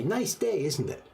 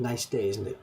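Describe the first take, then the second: First: Bright high-pitched hello to a stranger; lightly acted cheerful greeting; friendly greeting. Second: Said in the usual way. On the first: Shown as a demonstration. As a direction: chirp it like a cheery passerby. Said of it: "You meet somebody and you say". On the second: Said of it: "No problem, just two guys talking".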